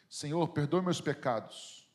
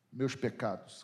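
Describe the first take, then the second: First: Said in the usual way. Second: "Meus" leaned on in a quizzical echo; quiet echo, "Meus" stressed, then "pecados" falling. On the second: Shown as a demonstration. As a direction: question the word "Meus" with mild irony. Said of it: "Como assim?".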